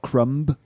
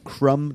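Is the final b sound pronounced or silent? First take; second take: pronounced; silent. First: The final b is pronounced. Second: The final b is silent. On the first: The speaker calls it wrong. "not crumb" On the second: The speaker calls it right.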